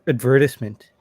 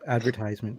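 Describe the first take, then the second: First: It is said with a British pronunciation. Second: It is said with an American pronunciation. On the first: "the British way" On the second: "instead of advertisement"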